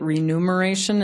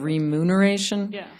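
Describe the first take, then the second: First: The n sound comes before the m sound. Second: The m sound comes before the n sound. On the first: The speaker calls it wrong. "we all say it" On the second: The speaker calls it right. "instead of"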